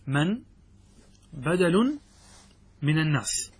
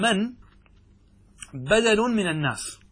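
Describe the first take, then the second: First: من، بدل، من الناس said word by word with long pauses; slow dictation. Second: من raised high, then بدل من الناس falling; stress on من. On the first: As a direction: dictate each word separately for note-taking. (إملاء بطيء كلمة كلمة مع وقفات) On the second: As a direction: lift the word من sharply above the rest. (نبرة عالية على كلمة من) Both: Shown as a demonstration. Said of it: "أن نقول".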